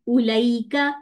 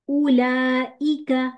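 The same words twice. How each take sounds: First: The middle is a smooth 'lai' glide. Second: A glottal break comes before a clear 'i'. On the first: The speaker calls it wrong. "ये नहीं वर्ड होना चाहिए" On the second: The speaker calls it right. "हमजा है, ई की साउंड, लाई नहीं"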